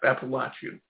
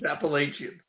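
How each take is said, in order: First: It is pronounced the way southerners say it. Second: It is pronounced the way northerners say it. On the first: This is how people down south say it. "they all say it's Appalachian... that's the correct pronunciation" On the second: This is how people up north say it. "the north end is Appalachian"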